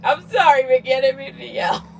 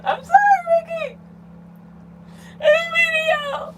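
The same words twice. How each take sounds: First: Lightly contrite apology to a pet; mild apology. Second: Very high, mock-tearful pet-owner wail; pleading apology. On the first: Pretend. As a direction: say a small, playful sorry. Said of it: "Now I feel bad". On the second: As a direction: plead for forgiveness in a squeaky, hammed-up voice. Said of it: "she's leaving the chair 'cause I yelled".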